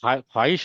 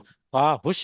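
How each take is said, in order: First: The second syllable has an i vowel. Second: The second syllable has a u vowel. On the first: The speaker calls it right. "There is a word ख्वाहिश होता है" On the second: The speaker calls it wrong. "नहीं होता है"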